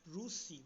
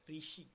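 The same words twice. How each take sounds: First: ऋषि said the Odia way as "rushi", a little slower; Odia pronunciation. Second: ऋषि said the Hindi way as "rishi"; Hindi pronunciation. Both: Shown as a demonstration. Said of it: "तो ऋषि को हम लोग उड़िया में क्या बोलेंगे".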